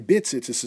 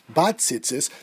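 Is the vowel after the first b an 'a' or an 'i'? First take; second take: i; a. First: The first vowel is a short 'i' sound. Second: The first vowel is an open 'a' sound. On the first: It implies any type of fringes. The speaker calls it right. "When you say bit tzitzis" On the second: It implies the fringes must have the blue thread. The speaker calls it wrong. "if you say it with a patach"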